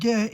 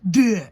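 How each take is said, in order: First: The D sound is soft and weak. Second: The D sound is firm and strong. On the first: The speaker calls it wrong. "not saying my D strong enough, and she said it's not de" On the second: The speaker calls it right. "it's de"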